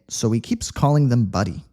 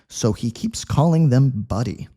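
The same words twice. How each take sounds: First: It is read at a quick speed. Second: It is read at a medium speed. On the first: "quick speed" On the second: "Medium speed"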